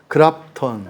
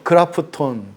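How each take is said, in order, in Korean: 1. p와 t가 붙어서 두 음절이에요. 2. 모음이 p와 t를 갈라놓아서 세 음절이에요. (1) "영어 발음을 잘하는 우리나라 사람들은" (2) "꼭 일본 사람이 영어 하는 것 같죠?"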